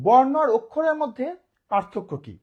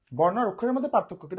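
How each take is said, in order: First: বর্ণ hit hard and louder, the question rising loud then dropping; teacher's emphatic first asking, louder on বর্ণ. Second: Said in the usual way. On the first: Shown as a demonstration. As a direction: punch বর্ণ loudly to open the question. Teacher poses key question emphatically.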